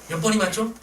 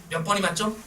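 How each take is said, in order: No difference in how they are said.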